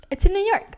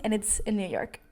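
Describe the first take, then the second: First: Pitched up high and louder in disbelief; shocked disbelief. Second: Said in the usual way. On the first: Real, not acted. Vlogger to viewers, realizing the camera is gone, shocked disbelief. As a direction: blurt it out, stunned.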